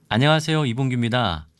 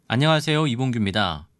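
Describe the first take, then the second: Both takes have the same delivery.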